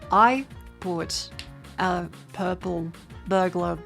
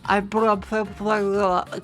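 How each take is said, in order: First: It is said slowly, one word at a time. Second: It is said together at normal, running speed. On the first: The speaker calls it right. "I can say the words individually very slowly" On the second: The speaker calls it wrong. "But if I say it together"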